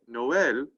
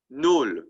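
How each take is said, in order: First: The word is said as two syllables. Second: The word is said as one syllable. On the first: The speaker calls it right. "Noël, right, sounds better" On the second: The speaker calls it wrong. "If the tréma wasn't there, Noël in French would be Nol"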